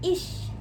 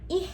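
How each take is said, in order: First: The ch is a clear sh-like hiss. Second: The ch is a soft, barely heard h. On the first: The speaker calls it right. "tapi dibacanya ish" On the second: The speaker calls it wrong. "bukan ih"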